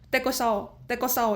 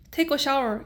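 First: It is said in an Indian-style English accent. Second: It is said in a plain standard accent. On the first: "인도 크루가 말하면 어떻게 들리냐면은 take a shower 이렇게 들려요" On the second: "예를 들어서 take a shower 이러잖아요"

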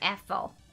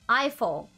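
First: The name is pronounced the French way. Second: The name is pronounced the English way.

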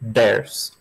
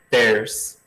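First: It begins with a d sound. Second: It begins with a hard t sound. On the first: The speaker calls it right. "Ou então faz com som de D" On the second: The speaker calls it wrong. "Para não falar assim, ter, theirs"

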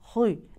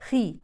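First: The kh sound is made very heavy and raised. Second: The kh sound is only lightly heavy. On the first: The speaker calls it wrong. "ما تقرأش" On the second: The speaker calls it right. "لا خي خي"

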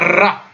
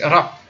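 First: The r is rolled long with several trills. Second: The r is a short, single light tap. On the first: The speaker calls it wrong. "Il n'y a pas trois roulements, c'est pas ra" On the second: The speaker calls it right. "c'est ra"

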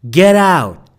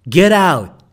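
Both takes have the same delivery.

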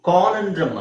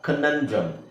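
First: The first vowel is drawn out long. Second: The first vowel is kept short. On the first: The speaker calls it wrong. "ಕಾನಂಡ್ರಮ್ ಅಲ್ಲ" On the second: The speaker calls it right.

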